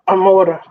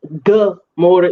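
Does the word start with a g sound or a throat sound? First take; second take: throat sound; g sound. First: The word begins with a guttural throat sound. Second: The word begins with a hard g sound. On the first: The speaker calls it right. "It's it's like um Amora" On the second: The speaker calls it wrong. "it's not actually Gamora"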